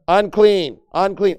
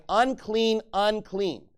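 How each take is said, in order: First: Unclean, unclean called out loud and falling; shouted warning. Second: Said in the usual way. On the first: Shown as a demonstration. Pastor acting the leper crying out, loud. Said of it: "he's saying you literally need". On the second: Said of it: "and shall cry".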